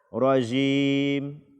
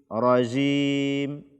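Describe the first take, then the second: Both takes have the same delivery.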